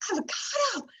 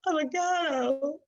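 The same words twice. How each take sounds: First: The word is said in a happy tone. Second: The word is said in a sad tone. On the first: "as if we're so happy" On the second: "And then sad"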